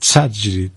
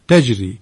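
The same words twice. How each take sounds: First: The t is sharp with a hissing s-like sound. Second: The t is soft without any hissing sound. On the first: The speaker calls it wrong. "حرف تا رو هم بعض وقتا تیز میگن دوستان، چه بوی سین میزنه توش" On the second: The speaker calls it right. "اینم بهتر که نرم بگیم"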